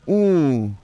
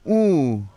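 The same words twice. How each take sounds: First: The long vowel is nasal, through the nose. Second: The long vowel is oral, not through the nose. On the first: "Long nasal" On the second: "Then we got a regular long U"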